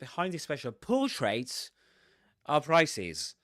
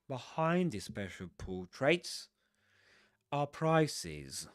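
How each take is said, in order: First: The stress falls on portraits, not on behind. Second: The voice goes up on the word behind. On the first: The speaker calls it wrong. "they don't say" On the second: The speaker calls it right. "your voice goes up on behind"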